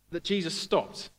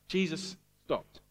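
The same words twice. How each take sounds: First: Said in the usual way. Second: "Jesus stopped" said slowly, each word weighed; slow emphatic "Jesus stopped". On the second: Shown as a demonstration. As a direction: let "Jesus stopped" land slow and heavy. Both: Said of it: "It's just two little words".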